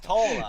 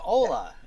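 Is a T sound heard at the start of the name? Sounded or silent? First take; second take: sounded; silent. First: The name starts with a clear T sound. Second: The name starts with no T sound. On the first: The speaker calls it right. "it's Tola" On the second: The speaker calls it wrong. "I almost pronounced the name with the T being silent"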